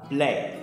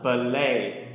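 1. P và l được ghép trong một âm tiết. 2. Một nguyên âm được thêm vào giữa p và l. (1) "Các bạn đọc là play" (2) "lại đọc thêm một âm tiết nữa"

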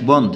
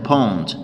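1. تبدأ الكلمة بصوت b مجهور. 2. تبدأ الكلمة بصوت p مهموس. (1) "هنا مش بوند" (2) "هنا pond"

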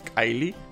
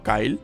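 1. El nombre tiene dos sílabas y termina en ee. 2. El nombre tiene una sílaba, sin ee final. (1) "Es Kylie" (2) "no Kyle"

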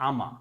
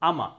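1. Going to একটি ছোট সিলেবলে সংক্ষেপিত হয়। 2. Going to একটি ছোট সিলেবলে সংক্ষেপিত হয়।

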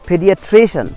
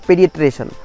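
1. तनाव '-cian' से पहले वाले अक्षर पर पड़ता है। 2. तनाव किसी दूसरे अक्षर पर पड़ता है।

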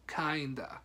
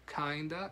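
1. Las dos palabras se unen en una sola palabra reducida. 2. Las dos palabras se unen en una sola palabra reducida.

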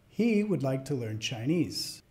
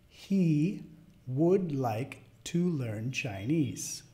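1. Se dice a velocidad rápida natural. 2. Se dice a velocidad media. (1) "al final las voy a decir como las diría a otro hablante nativo" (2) "a la segunda vez de velocidad media"

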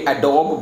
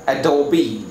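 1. शब्द एक सादे 'b' ध्वनि पर खत्म होता है। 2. शब्द 'ee' स्वर ध्वनि पर खत्म होता है। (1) "हमने इसको भी एडोब बोल दिया था" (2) "लेकिन ये एडोबी होता है"

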